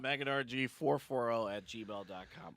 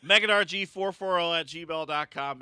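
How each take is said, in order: First: Quiet. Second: Loud. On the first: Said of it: "repeats email plug". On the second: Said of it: "repeats email plug louder". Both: Shown as a demonstration.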